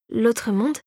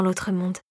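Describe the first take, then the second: First: Puzzled echo, rising on MONDE; taken aback. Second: Said in the usual way. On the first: A narrator's reading. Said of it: "répéta Clara interloquée".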